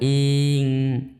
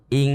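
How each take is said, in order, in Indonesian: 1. Vokalnya dipanjangkan. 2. Vokalnya pendek dan langsung lanjut. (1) "tidak boleh i menjadi panjang" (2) "harusnya langsung"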